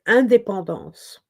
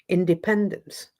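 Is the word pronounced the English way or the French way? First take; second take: French; English. First: The word is said with French pronunciation. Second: The word is said with English pronunciation. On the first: "in French you say indépendance" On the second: "In English, independence"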